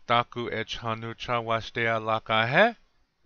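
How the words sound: It is said with an English-like melody.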